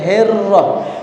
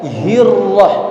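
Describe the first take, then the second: First: The first vowel is an 'e' sound. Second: The first vowel is a clear 'i' sound. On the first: The speaker calls it wrong. "jangan herrah" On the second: The speaker calls it right. "hinya hirrah"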